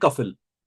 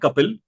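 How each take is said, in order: First: The middle consonant is an 'f' sound. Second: The middle consonant is a plain 'p' sound. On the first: This is how the written spelling reads. The speaker calls it wrong. "लिखने में है कफिल" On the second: This is how the name is spoken. The speaker calls it right. "बोलने में है कपिल"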